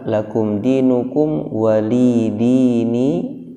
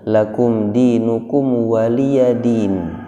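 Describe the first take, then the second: First: The ya is dropped and it ends in dini. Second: A voiced ya with a vowel comes before din. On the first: This is another transmitted reading. "Dibaca juga" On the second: This is the familiar local reading. "Yang ada di kita"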